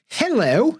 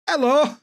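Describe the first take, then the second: First: The word starts with a clear H sound. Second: The word starts with no H sound. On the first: "we're going to not say hello" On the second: "not going to pronounce H at beginning of words"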